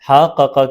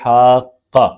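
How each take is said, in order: First: The two q sounds are separated by a vowel. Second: The two q sounds merge into one doubled sound. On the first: The speaker calls it wrong. "हा का का के बजाय" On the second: The speaker calls it right. "तो हम इदगाम करेंगे"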